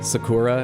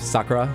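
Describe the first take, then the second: First: The stress falls on a later syllable. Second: The stress falls on the first syllable. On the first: This is the usual English way of saying it. The speaker calls it wrong. "we'd say like Sakura" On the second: This is closer to how Japanese speakers say it. The speaker calls it right. "instead of Sakura, and I think Sakura is closer"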